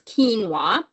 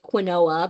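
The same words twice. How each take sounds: First: The word is said with its standard pronunciation. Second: The word is sounded out literally, letter by letter. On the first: The speaker calls it right. "but it's quinoa" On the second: The speaker calls it wrong. "it looks like quinoa"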